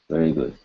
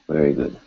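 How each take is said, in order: Both takes have the same delivery.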